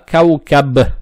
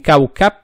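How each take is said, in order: First: The final b is fully voiced. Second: The final b is devoiced, like p. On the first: The speaker calls it right. "букву ба подчеркиваем" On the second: The speaker calls it wrong. "не оглушаем. То есть не каукаб"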